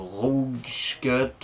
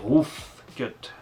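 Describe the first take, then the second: First: The first word ends without an f sound. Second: The first word ends with a clear f sound. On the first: The speaker calls it wrong. "et pas Ross Cut ou Rouge Cut" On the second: The speaker calls it right. "c'est Roof Cut avec un grand F"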